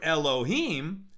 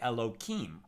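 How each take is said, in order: First: The middle consonant is an H sound. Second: The middle consonant is a K sound. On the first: The name is spoken directly. "as I just said it a moment ago" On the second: The name is altered out of respect. "we substitute a K for the H out of respect"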